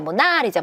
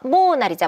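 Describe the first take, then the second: First: The stress is on the second syllable. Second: The stress is on the first syllable. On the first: "두 번째야" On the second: "첫 번째야"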